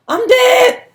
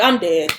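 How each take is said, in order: First: High, loud panicked wail; sudden high-pitched cry of dread. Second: Said in the usual way. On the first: Retold or imitated. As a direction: wail it like doom is coming. Panicking about wrecking mom's car.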